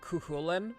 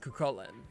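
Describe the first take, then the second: First: The middle consonant is a softer sound. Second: The middle consonant is a strong hard k. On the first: The speaker calls it wrong. "a lot of people will pronounce it like Cuchulainn, which is not true" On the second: The speaker calls it right. "It's Cucullin. ... Kuh noises are very strong"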